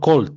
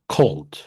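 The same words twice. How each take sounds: First: The first k sound has no puff of air. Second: The first k sound has a puff of air. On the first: The speaker calls it wrong. "No es solo cold" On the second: The speaker calls it right. "Un sonido de K con H"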